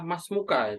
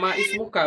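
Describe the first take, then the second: First: 'Ma' runs straight into 'smuka' with no 'i'. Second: A separate 'i' vowel is heard after 'ma'. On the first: The speaker calls it right. "itu adalah masmuka" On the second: The speaker calls it wrong. "Bukan ma ismuka, bukan"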